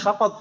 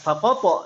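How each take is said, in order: First: The final q is cut short without a bounce. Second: The final q is released with a strong bounce. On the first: The speaker calls it right. "kita dalam percakapan kita hanya bilang fakot gitu saja" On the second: The speaker calls it wrong. "nggak fakopo, nggak gitu. Malah aneh kan ya"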